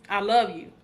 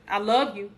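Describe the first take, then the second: No difference in how they are said.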